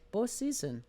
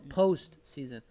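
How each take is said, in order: First: The T is soft, and the word runs together. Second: The T is hard, with post and season separate. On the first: The speaker calls it wrong. "there's not really a hard T sound? It's a soft sound. So it's like postseason" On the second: The speaker calls it right.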